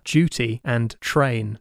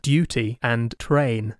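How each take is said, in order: First: The d and t sound like j and ch. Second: The d and t sound crisp and clear. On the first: "he called it crunching. And the example words were duty and train" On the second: "instead of"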